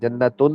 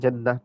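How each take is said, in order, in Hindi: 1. यह शब्द पूरी -tun आवाज़ से खत्म होता है। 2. यह शब्द नरम h की आवाज़ से खत्म होता है। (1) "जन्नतुन होता है ना असल में" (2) "जब वक़्फ़ करते हैं जन्नह पढ़ देते हैं"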